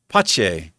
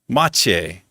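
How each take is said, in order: First: The word begins with a P sound. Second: The word begins with an M sound. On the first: "It sounds like it starts with a P" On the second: "it's with an M"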